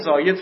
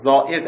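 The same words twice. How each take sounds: First: The word is pronounced the Persian way. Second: The word is pronounced the Arabic way. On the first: "زائد فارسیه" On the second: "زائد عربی"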